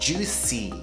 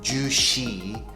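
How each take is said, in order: First: The last syllable is said like 'see'. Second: The last syllable is said like 'shee'. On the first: The speaker calls it right. "it's juicy. C" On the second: The speaker calls it wrong. "it's not juicy"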